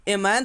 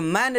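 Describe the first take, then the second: First: "ए मैन" with an extra vowel ए before मैन; wrong reading. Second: "मैन" begun straight on the sound म; correct reading. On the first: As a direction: say "ए मैन", letter-name sound stuck on the front. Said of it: "तो नहीं ना पढ़ रहे हैं". ("ए मैन" में आगे ए जोड़कर गलत उच्चारण) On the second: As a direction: say "मैन" as one word with nothing before it. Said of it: "देखिए, मैन लिखा हुआ है". ("मैन" सीधे म ध्वनि से सही उच्चारण) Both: Shown as a demonstration.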